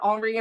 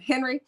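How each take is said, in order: First: The name is said with a French pronunciation. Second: The name is said with an English pronunciation. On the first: "in French they say it Henri" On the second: "so we're gonna call him Henry"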